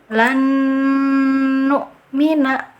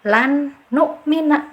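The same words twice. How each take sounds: First: The double n is held with a long nasal hum. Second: The first n is pronounced clearly and separately. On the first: The speaker calls it right. "cara baca yang betul" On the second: The speaker calls it wrong. "yang keliru lagi... ijhar jelas"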